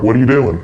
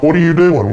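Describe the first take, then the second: First: Said in the usual way. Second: Higher and louder, half shouting; sibling catching brother red-handed, loud alarmed question; alarmed retold shout. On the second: A mock-alarmed retold yell.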